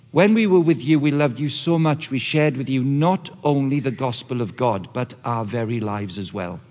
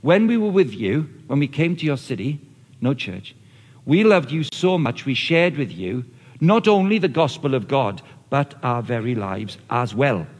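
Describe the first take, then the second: First: Scripture read with emphasis; emphatic scripture reading. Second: Loved and not hit hard, last line slowed; emphatic scripture reading again. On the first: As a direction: stress on we, so and not, slowing at the end. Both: Shown as a demonstration. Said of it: "I'll say them again".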